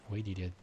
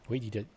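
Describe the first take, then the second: The two takes are said the same way.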